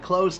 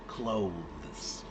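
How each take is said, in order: First: It is said fast, with no 'th' sound. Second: It is said slowly, with the 'th' sound. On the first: "It sounded exactly like close the door" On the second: "if you're speaking slowly"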